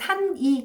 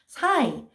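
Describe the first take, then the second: First: The n is pronounced fully, as in standard Korean. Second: The n drops, leaving a Gyeongsang nasal vowel.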